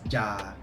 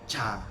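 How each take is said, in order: First: It starts with a plain English j sound. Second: It starts with j sliding into a ch sound. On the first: "Theoretically, it's supposed to be pronounced as ja, like Ja Morant's ja" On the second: "then you slide in a C H ... then the vowels kicks in"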